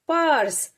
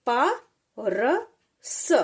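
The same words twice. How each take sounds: First: पर्स said whole, louder, falling; पर्स as one syllable; blended word. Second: प र स slow, letter by letter; प र स as three separate sounds; sounding out letters. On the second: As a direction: spell out प र स with pauses. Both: Shown as a demonstration. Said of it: "जैसे".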